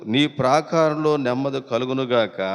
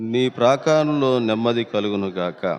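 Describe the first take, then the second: No difference in how they are said.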